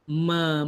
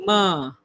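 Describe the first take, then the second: First: The vowel is thin, with the mouth barely opened. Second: The vowel is thick, with the mouth opened wide. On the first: The speaker calls it right. "cuma ma tu kalau boleh nipiskan" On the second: The speaker calls it wrong. "Bukan ma"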